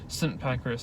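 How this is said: Saint is pronounced the British way. "It's Saint Pancras, I think you pronounce it"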